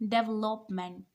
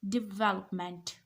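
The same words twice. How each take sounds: First: The stress falls on the third syllable. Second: The stress falls on the second syllable. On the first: The speaker calls it wrong. "This is not development. The stress is not on third syllable" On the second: The speaker calls it right. "The stress is on second syllable"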